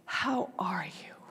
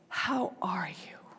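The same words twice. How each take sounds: First: It is said with deep, heavy emphasis. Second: It is said with deep, heavy emphasis.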